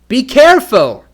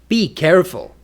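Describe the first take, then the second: First: It is said like an urgent exclamation. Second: It is said like a firm command. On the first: The speaker urgently grabs the listener's attention. "For an exclamation" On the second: The listener is told to be careful. "For a command"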